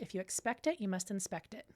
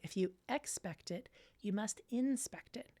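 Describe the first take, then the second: First: It is said at normal speed. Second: It is said slowly.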